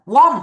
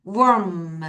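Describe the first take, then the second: First: "warm" said short as "wam"; the mistake to avoid, "warm" with an ah vowel; wrong "warm" example. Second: "warm" drawn out with a 워 vowel; correct "warm". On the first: Teacher warning students off a mistake, "warm" as short "wam". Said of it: "warm 하지 마". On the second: Teacher correcting the class, long "warm" with a 워 sound. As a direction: model "warm" slowly, rounded "wor" then m. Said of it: "warm 하지 마. 다시". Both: Shown as a demonstration.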